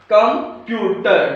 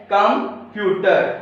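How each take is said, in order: First: computer slowly, syllable by syllable. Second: computer drawn out very slowly; very slow syllables. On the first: Teacher modelling where the stress falls in computer. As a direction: break computer into slow syllables. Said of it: "आपने देखना है stress कहाँ पे आ रहा है". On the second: Teacher demonstrating the syllables of computer. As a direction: pull computer apart syllable by syllable. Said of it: "जैसे यहाँ पे है". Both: Shown as a demonstration.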